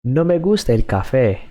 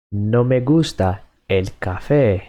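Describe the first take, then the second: First: No me gusta el café said fast and a bit higher; quick natural speed. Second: Said in the usual way. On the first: Shown as a demonstration. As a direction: toss off No me gusta el café at native pace.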